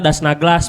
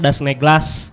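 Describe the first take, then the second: First: The vowel in the second word sounds like 'a'. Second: The vowel in the second word sounds like 'e'. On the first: The speaker calls it wrong. "kita dipanggilnya Das Naglas pasti kalau baru pertama kali" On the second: The speaker calls it right. "sebetulnya dibacanya Das Neglas"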